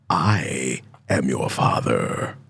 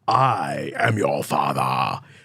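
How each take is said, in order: First: A deep voice with a hard final R. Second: A soft British accent with no final R. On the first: This is how the line is actually said in the film. The speaker calls it right. "He gives it a nice hard R on that father" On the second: This is how people usually imitate the line. The speaker calls it wrong. "always give the father sort of a British accent. They always give it like a soft"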